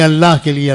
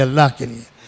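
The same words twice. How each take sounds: First: Said in the usual way. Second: "اللہ کے لیے" dropped much softer and lower; hushed plea. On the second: Shown as a demonstration. Preacher begs the youth, suddenly hushed and intimate. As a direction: sink to an intimate near-hush on "اللہ کے لیے". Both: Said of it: "خدا کے لیے".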